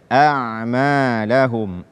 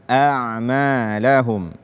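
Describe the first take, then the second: No difference in how they are said.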